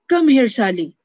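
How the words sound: It is said in an angry tone.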